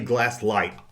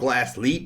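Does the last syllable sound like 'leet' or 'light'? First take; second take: light; leet. First: The last syllable sounds like 'light'. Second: The last syllable sounds like 'leet'. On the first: "but I used to say Glasslight" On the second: "I believe it's pronounced Glassleet"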